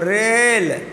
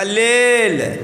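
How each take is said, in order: First: The word begins with an r sound. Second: The word begins with an l sound. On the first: "बेटा कहो रेल" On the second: "उसका उच्चारण नहीं होता है"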